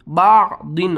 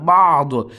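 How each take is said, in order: First: The word ends with a 'din' syllable. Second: The word ends on a bare 'd'. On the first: The word is read on, not stopped. "दो दो ज़ेर दिन" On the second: The reader stops on the word. "आखिरी हर्फ को साकिन करते हैं"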